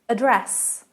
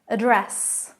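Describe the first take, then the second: First: It has the British stress pattern. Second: It has the British stress pattern.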